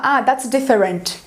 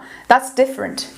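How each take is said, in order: First: Slow "different" as dif-fe-RENT; wrong full vowels. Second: "different" in two beats, dif-frent; reduced middle vowel. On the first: Teacher showing learners what not to say, slow full-vowel "different". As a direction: say "different" in three full syllables. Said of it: "você não vai falar". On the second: Teacher modelling a sentence for learners, "different" with schwa. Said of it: "Quando você for falar". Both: Shown as a demonstration.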